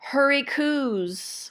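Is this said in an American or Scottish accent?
Scottish. It is said in a Scottish accent. "what the Scots call"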